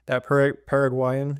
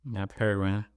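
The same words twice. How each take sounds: First: Paraguayan tried slowly, syllable by syllable; unsure try at Paraguayan. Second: Paraguayan said lightly, as confirmation; confirming the word. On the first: Reading aloud, asking her co-host how to say Paraguayan. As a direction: test the word Paraguayan carefully. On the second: Co-host confirms how to pronounce Paraguayan. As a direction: say Paraguayan back to her. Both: Shown as a demonstration. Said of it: "is that how you".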